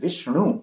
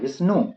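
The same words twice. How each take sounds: First: The nasal is a retroflex n. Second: The nasal is a dental n. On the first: The speaker calls it right. "मूर्धन्य न" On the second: The speaker calls it wrong. "जो न है वो नहीं"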